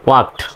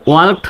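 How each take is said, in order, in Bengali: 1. এই শব্দে L এর উচ্চারণ নীরব রাখা হয়। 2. এই শব্দে L এর উচ্চারণ করা হয়। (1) "এল এর উচ্চারণ সাইলেন্ট হয়" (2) "না বলে"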